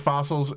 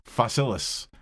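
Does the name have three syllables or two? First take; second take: two; three. First: The name is said with two syllables. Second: The name is said with three syllables. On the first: The speaker calls it wrong. "I I said fossils every time too" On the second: The speaker calls it right. "and then I realized it is uh"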